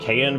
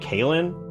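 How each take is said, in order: First: The name is said without an L sound. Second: The name is said with an L sound. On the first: The speaker calls it wrong. "You pronounce it Kayan" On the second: The speaker calls it right. "but it's actually Kaylin"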